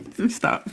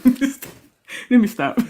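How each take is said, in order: First: Breathless giggle through the words; trying to stop laughing; laughing, unvoiced. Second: Drawn out through a giggle; slowly catching breath from laughing. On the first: Cohost cracking up at the story, giggling. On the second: Cohost recovering from laughter, slow giggle. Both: Real, not acted.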